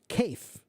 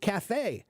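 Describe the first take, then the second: First: It is said following English spelling rules. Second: It is said with a French-style pronunciation. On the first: The speaker calls it wrong. "If it were English, we would pronounce it cafe" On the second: The speaker calls it right. "Cafe is a French word. That's why that's why we pronounce it cafe"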